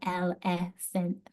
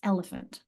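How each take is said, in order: First: The unstressed vowels are said full and clear. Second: The unstressed vowels are swallowed into a schwa. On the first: The speaker calls it wrong. "It's not elephant" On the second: The speaker calls it right. "It's elephant"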